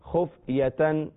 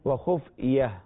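First: The word ends in a full -atan. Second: The word ends in a short -ah. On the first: The reader continues without stopping. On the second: The reader stops after this word.

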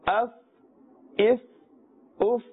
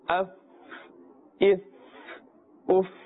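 First: The f sound is kept short. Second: The f sound is stretched out long. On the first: The speaker calls it right. "But in the normal manner" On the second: The speaker calls it wrong. "don't stretch the sound of the letter fa. Do not say"

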